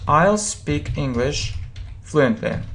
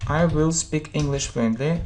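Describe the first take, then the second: First: The word will is contracted onto I. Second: The word will is said in full. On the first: "you can use a short form" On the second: "Will plus verb"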